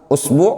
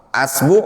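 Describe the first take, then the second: First: The word begins with a u vowel. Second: The word begins with an a vowel. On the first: "Antum mulai misalkan dhammah" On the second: "Kemudian antum fathah"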